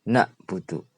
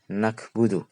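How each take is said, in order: First: A glottal stop follows the first vowel. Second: A k sound follows the first vowel. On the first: Anxiety. "pakai hamzah" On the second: Spleen illness. "pakai kaf"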